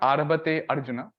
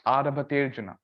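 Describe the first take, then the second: First: The first vowel of Arjuna is clearly pronounced. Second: The first vowel of Arjuna is dropped, words merged. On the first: The speaker calls it wrong. "It's not Arabate Arjuna" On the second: The speaker calls it right. "It's Aravaterjuna"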